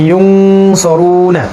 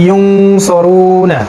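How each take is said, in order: Both takes have the same delivery.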